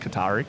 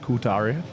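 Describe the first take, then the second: First: The name is said with an Australian sound. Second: The name is said with an Italian-like sound. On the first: The speaker calls it wrong. "our Aussie way of saying things like yeah, Qatari" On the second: The speaker calls it right. "It sounds a bit of, uh, a little bit Italian"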